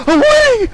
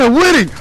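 First: Much higher, loud shriek of winning; the same words, now a top-of-the-lungs shriek; excited shriek. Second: Loud cry of winning, not yet at the peak; gleeful yell, rising toward a shriek; excited yell. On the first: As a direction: scream it as the win gets real. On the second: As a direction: shout it as the win comes into sight. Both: Real, not acted. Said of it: "I started screaming a little bit much".

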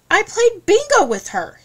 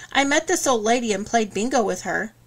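First: High, loud, indignant protest; defensive. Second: Said in the usual way. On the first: Acted. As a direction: insist hotly, voice jumping up. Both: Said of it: "he said defensively".

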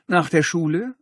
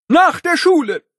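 First: Said in the usual way. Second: High shouted, NACH punched; strict teacher. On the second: Acted. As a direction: yell it like a furious principal. Principal yells detention.

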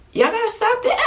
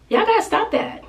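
First: High, scolding through a laugh. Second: Scolding viewers. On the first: Mother laughing as she scolds viewers who pity her son. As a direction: laugh while telling them off. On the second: Scolding viewers who pity son. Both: Real, not acted.

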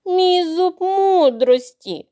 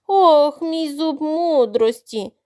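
First: Higher, very slow theatrical moan; groaning. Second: Slow drawn-out wail over a toothache; wailing moan. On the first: Crocodile moaning to fool the youngest duckling. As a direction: wail the tooth like a tragedy. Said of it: "стогнав він". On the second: Crocodile wailing to the duckling about his tooth. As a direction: moan it out, milking the pain. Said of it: "заголосив Кроко". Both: Acted.

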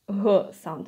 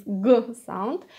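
First: "g sound" with g said as a soft voiced h. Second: "g sound" with a hard stop, as in gates. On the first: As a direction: make g a voiced exhale, like "huh". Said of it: "it's softer than Russian g". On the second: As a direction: hit g as a firm guh. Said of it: "it's a very hard g sound". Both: Shown as a demonstration.

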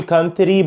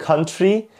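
First: "country" as "kan-te-ree"; wrong TR pronunciation. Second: "country" as "kun-chree"; correct American TR. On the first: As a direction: say "country" with a separate t and r. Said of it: "مش بقول country". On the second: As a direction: say "country" with sh between t and r. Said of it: "بقول country". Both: Shown as a demonstration.

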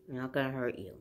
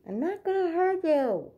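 First: Said in the usual way. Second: High, loud reassurance to a scared dog; high coaxing voice. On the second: Real, not acted. Coaxing scared dog, then repeated.

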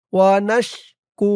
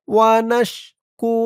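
No difference in how they are said.

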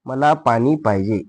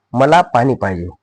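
First: Measured word-by-word repeat; slow dictation. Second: Said in the usual way. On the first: Shown as a demonstration. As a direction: give pupils time to write. Teacher repeats slowly for dictation. (सावकाश शब्द सुटे करून)

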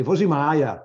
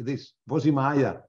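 First: Put-on "Vozi Maya" in a thick German accent, said louder. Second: Slow "Vozi Maya" said as the boss gave it; "Vozi Maya" drawn out as a set phrase; lightly voiced boss teaching the phrase; quoting the boss. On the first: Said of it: "my German accent". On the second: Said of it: "you're gonna say this".

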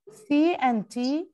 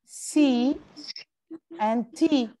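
First: C and T drawn out one letter at a time, very slow; teacher sounding out C and T letter by letter; slow spelled letters. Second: Said in the usual way. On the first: Shown as a demonstration. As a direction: spell out C and T slowly for the class.

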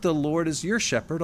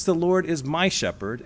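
First: "your" leaned on as the wrong version; emphasis falls on "your"; stress on your. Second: "my" leaned on as the right version; emphasis lands on "my"; stress on my. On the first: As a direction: set "your" apart as the one it isn't. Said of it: "It's not". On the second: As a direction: claim "my" as personal. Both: Shown as a demonstration.

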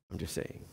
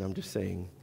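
First: Breathy whispered repeat under the breath; whispered aside. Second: Said in the usual way. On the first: Shown as a demonstration. Repeats aside, second take whispered.

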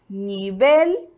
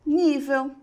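First: Nivel the Spanish way, ending in a clear L; Spanish pronunciation. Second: Nível the Portuguese way, stressed on NÍ; Portuguese pronunciation. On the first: Teacher shows the Spanish word, nivel with a b sound and final L. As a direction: say nivel as ni-BEL. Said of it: "No espanhol temos". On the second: Teacher gives the Portuguese counterpart, nível ending in a w sound. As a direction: say nível as NÍ-veu. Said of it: "português". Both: Shown as a demonstration.

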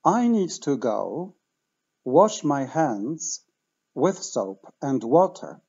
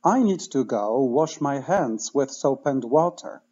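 First: Slow, careful model sentence; slow teaching demo. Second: At normal speed, run together; natural speed teaching demo; faster. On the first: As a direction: say it slowly for learners to repeat. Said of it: "Jeszcze raz wolno". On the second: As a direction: say it fluently at natural pace. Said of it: "A teraz szybciej". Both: Shown as a demonstration.

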